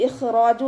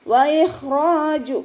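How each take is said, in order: First: ഇഖ്റാജു clipped and spoken; wrong reading. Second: Slow, higher, louder chanted ഇഖ്റാജു; correct recitation. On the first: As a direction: say ഇഖ്റാജു flatly as the mistake. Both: Shown as a demonstration. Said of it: "എന്ന് ഓതരുത്".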